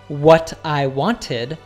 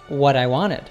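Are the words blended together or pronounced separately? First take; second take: separate; blended. First: The words are pronounced separately, not linked. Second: The words run together into one blended unit. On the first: The speaker calls it wrong. "He doesn't say" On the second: The speaker calls it right. "Notice how these words blend together"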